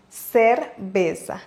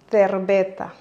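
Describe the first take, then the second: First: The c sounds like an s. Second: The c sounds like th. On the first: "en Amérique latine, on prononce cerveza" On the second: "en Espagne, on va plutôt dire cerveza. En plaçant la langue derrière les dents en haut"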